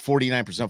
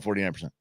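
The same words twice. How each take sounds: First: Said in the usual way. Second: A softer, lower echo of forty-nine percent; murmured repeat of forty-nine percent; trailing off. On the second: Real, not acted.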